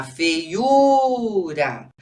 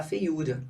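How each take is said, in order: First: "feiura" stretched very slowly, each syllable clear; drawn-out model word. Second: Said in the usual way. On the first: Shown as a demonstration. Teacher showing pupils the word, slow and clear. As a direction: spell "feiura" out slowly for the class. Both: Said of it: "Ah lá, feiura".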